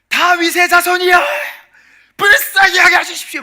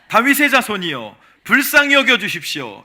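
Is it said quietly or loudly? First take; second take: loudly; quietly. First: It is shouted loudly and urgently. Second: It is said quietly and weakly.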